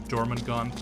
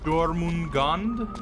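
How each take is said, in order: First: The name is pronounced like a non-Japanese word. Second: The name is pronounced like a Japanese word. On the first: The speaker calls it right. "that's how they pronounce it in the show" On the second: The speaker calls it wrong. "I thought it was Jormungand, because, you know, I assumed Japanese anime is gonna have a Japanese name"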